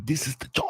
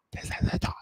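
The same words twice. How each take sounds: First: Said in the usual way. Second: Breathy whispered repeat. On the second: Shown as a demonstration. Repeating the phrase to viewers, whispered. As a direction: whisper it like a secret.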